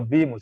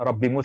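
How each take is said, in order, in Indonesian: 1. Vokal di Robbi diucapkan panjang. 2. Vokal di Robbi pendek.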